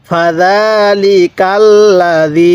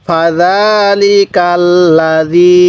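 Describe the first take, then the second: Both takes have the same delivery.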